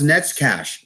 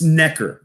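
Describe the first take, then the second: First: The name is said with a 'ts' and 'sh' sound. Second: The name is said with a plain 'k' sound. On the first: The speaker calls it wrong. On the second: The speaker calls it right.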